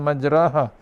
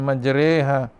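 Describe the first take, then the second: First: The long vowel is an open 'a' sound. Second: The long vowel is fronted toward an 'e' sound. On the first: "tanpa imalah" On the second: "secara imalah"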